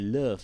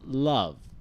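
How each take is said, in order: First: Said with a Malay-sounding vowel. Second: Said with a standard schwa-like vowel. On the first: The speaker calls it wrong. "You don't say love. Love to very Malay sounding" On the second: The speaker calls it right. "for most cases, it's love"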